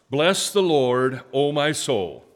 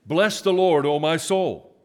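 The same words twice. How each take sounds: First: Slow, loud, raised leading line; slow, loud scripture line for the congregation to echo; emphatic call to repeat. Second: Much higher, loud proclaiming; the pastor asks the church for more emphasis, then proclaims it high and loud. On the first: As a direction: lead the church in a call-and-response reading. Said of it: "You repeat after me with the same expression". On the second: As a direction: push the line out with more emphasis. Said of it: "give it just a little more, little more emphasis there". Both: Shown as a demonstration.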